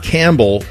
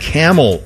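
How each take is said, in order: First: It is said like the surname Campbell. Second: It is said like the word camel. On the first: The speaker calls it wrong. "Not Campbell" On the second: The speaker calls it right. "So Campbell is pronounced Camel"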